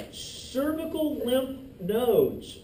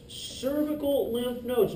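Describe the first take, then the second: First: Slow emphasis. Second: Said in the usual way. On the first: Shown as a demonstration. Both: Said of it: "teacher repeats term".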